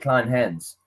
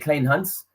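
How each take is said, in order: First: The name is said in an anglicized way. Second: The name is said in a South African way. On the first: It is easier for people here to say. "to make it easier for people here" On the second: It is how it is said at home. "In South Africa, we say Klein Hans"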